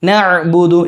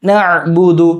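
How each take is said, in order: The two takes are said the same way.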